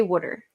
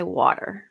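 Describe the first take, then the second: First: Water said as "wooder"; Philly pronunciation. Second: Water said as "waw-ter"; standard pronunciation. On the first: Streamer showing their accent, water as "wooder". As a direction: say water with the vowel of "wood". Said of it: "So I, I say water". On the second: Streamer showing what they don't say, water as "waw-ter". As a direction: say water with an open vowel and clear T. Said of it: "I don't say water". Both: Shown as a demonstration.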